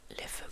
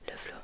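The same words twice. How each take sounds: The two takes are said the same way.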